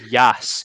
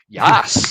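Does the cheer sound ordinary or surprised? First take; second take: ordinary; surprised. First: It is an ordinary, routine celebratory cheer. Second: It is a surprised, astonished celebratory roar.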